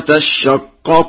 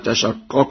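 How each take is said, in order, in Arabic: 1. صوت 'sh' مضعّف ومطوّل. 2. صوت 'sh' قصير ومفرد.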